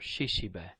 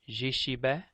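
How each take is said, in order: First: The word begins with a voiceless Sh sound. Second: The word begins with a voiced J sound. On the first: "The J sound or the Sh sound" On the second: "The J sound or the Sh sound"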